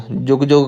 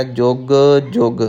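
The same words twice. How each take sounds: First: ਜੁਗ ਜੁਗ quickly joined as one word; run together. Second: ਜੁਗ ਜੁਗ with a gap between the words; slightly separated. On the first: Teacher showing learners the mistake, ਜੁਗ ਜੁਗ run together. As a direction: say ਜੁਗ ਜੁਗ with no gap. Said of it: "ਜੁਗ ਜੁਗ ਇਕੱਠਾ ਨਹੀਂ ਕਹਿਣਾ". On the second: Teacher showing learners, ਜੁਗ ਜੁਗ spaced apart. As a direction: pause after the first ਜੁਗ, then say the second. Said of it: "ਥੋੜ੍ਹਾ ਜਿਹਾ ਵਖਰੇਵਾਂ ਰੱਖਣਾ ਹੈ". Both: Shown as a demonstration.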